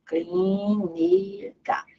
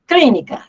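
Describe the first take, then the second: First: Very slow Clínica, soft, rising at the end; slow soft syllable demo; drawn out. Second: Clínica loud, hitting Clí; loud stress demo on Clí. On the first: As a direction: stretch Clínica out slowly and softly. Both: Shown as a demonstration. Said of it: "Tá aqui o acento".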